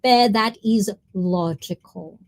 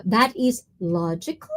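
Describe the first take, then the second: First: That is logical, leaning on that; slow, with the word that stretched and stressed. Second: Said in the usual way. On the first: Shown as a demonstration. Streamer repeating a line to chat, stressing that.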